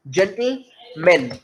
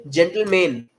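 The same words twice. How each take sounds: First: "जेंटलमैन" धीमे, बीच की आवाज़ गिराकर; "जेंटलमैन" में बीच का साउंड हल्का करो; सही उच्चारण. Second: "जेंटलमैन" पूरा खुलकर, "मैन" पर ज़ोर; "जेंटलमैन" का हर हिस्सा साफ़ बोलो; गलत उच्चारण. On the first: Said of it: "sound को ड्रॉप करना है". ("जेंटलमैन" धीरे, "मैन" दबाकर) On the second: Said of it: "जो कि गलत है". ("जेंटलमैन" गलत तरीके से, "मैन" उभारकर) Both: Shown as a demonstration.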